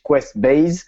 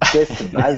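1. Il se prononce avec un accent anglais. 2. Il se prononce avec un accent français. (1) "in English" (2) "tu le prononces à la française"

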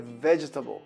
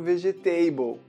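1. A vogal do meio cai, deixando três sílabas. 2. Cada sílaba é pronunciada por completo, quatro no total. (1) "A forma correta de falar é vegetable" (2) "eu não quero ninguém falando vegetable, que é horroroso isso"

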